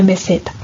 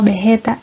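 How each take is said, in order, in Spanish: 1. La s del medio es un sonido de s silbante. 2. La s del medio es un sonido de h aspirada. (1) "en lugar de" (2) "la aspiración de la S en posición inicial de sílaba"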